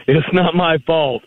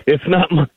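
First: Said in the usual way. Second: Says it through a laugh; chuckling while starting the line; laughing at his own point. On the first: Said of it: "they put emphasis on the wrong syllable". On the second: Real, not acted.

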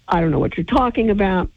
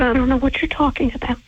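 First: Said in the usual way. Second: Higher, quick, snippy mock denial; mocking Anne. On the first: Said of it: "repeats Anne's denial". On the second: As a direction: play her innocent denial as a send-up. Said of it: "She said".

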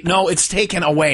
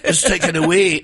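First: "it's taken away" with "away" run together as one word; corrected version. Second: "It's taken a wee" with "a wee" as two clear words, wee long and falling; misheard version. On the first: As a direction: join "a" and "way" smoothly into "away". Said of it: "not taken a wee". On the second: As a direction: say "taken a wee" splitting a and wee apart. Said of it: "No, it's taken away, not taken a wee". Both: Shown as a demonstration.

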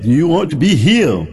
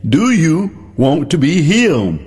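First: Said in the usual way. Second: Slow, drawn-out gentle question; drawn-out question with a hint of Jesus' voice. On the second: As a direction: lay each word out slowly, like Jesus asking.

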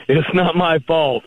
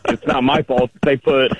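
First: "not" stretched and raised, said slowly; stress on not. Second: Said in the usual way. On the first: Shown as a demonstration. Caller slowly leans on "not" for the host. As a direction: lean hard on "not" to make the joke. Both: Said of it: "emphasis on the wrong syllable".

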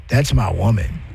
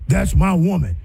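First: Much lower, rising on my; low possessive "That's my woman" with my rising. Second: Level, falling on my; plain loving "That's my woman" falling on my; affectionate tone. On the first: Demo of claiming a woman, low and possessive. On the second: Demo of loving pride, said plainly. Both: Shown as a demonstration. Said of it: "It's the inflection in tone".

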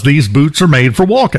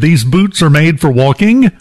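First: "walking" ending in a plain n, as walkin'; dropped G. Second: "walking" with the full -ing ending; G pronounced. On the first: Shown as a demonstration. Contestant show puzzle read as the song title, dropped G. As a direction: say "walking" without sounding the final G. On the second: Retold or imitated. Contestant solving the puzzle on air, G pronounced. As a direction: sound out the ending of "walking" as -ing, not -in'. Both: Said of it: "pronounced the G at the end".

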